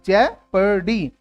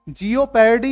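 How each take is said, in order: First: No 'o' sound follows the first syllable. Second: An extra 'o' sound follows the first syllable. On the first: The speaker calls it right. "इसमें ओ silent है" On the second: The speaker calls it wrong. "जियोपैरडी नहीं है"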